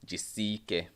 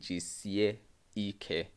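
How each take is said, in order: First: The middle vowels merge into one sound. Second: The middle vowels are said as separate sounds. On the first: The speaker calls it right. "it is pronounced as Jisike" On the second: The speaker calls it wrong. "I know you are saying Jisie Ike"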